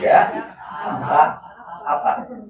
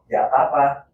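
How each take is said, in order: First: It is said slowly, word by word. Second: It is said fast and connected, naturally.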